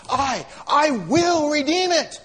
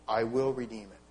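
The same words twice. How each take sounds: First: "I, I will redeem it" slow, loud and higher, leaning hard on "will"; emphatic pledge. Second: Said in the usual way. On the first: Shown as a demonstration. Preacher showing the Hebrew emphasis, slow, loud emphatic pledge. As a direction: declare "I will redeem it" with full emphatic weight, stressing "will". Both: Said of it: "that's even more emphatic".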